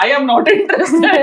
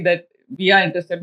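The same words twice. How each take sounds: First: "I am not interested" stretched out slowly and louder, with a laugh; a loud, slow mock refusal that breaks into laughter; drawn-out, laughing refusal. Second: Said in the usual way. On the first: Laughing refusal, echoing their words. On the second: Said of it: "मैंने कहा".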